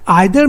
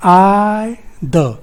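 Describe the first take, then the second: First: Said in the usual way. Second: "I, the" said as two separate syllables, first held long. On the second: Shown as a demonstration. Teacher counting syllables in either, "I, the" slowly split apart. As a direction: split either into a drawn-out "I", pause, short "the". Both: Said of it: "either में कितने syllable होंगे".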